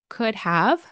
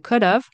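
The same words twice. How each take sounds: First: Both words are said fully and separately. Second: It is reduced and blended into 'coulda'. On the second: "which turns into could have"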